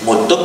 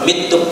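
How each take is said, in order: First: The first vowel sounds like u. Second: The first vowel sounds like i. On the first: "ini juga bisa dibaca dengan dua versi" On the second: "ini juga bisa dibaca dengan dua versi"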